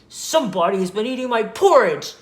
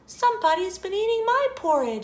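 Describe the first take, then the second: First: The voice is loud, deep and growly. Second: The voice is soft, gentle and sweet. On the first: "he said in his loud, growly voice" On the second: "she explained in her sweet, low voice"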